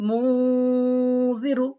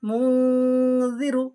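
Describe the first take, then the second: The two takes are said the same way.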